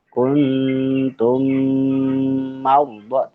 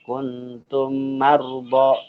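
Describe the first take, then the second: First: The m is held with a long nasal hum. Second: The m is cut short without a nasal hum. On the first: The speaker calls it right. "dibaca dengan dengung seukuran dua harokat" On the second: The speaker calls it wrong. "itu kurang tepat membaca seperti itu"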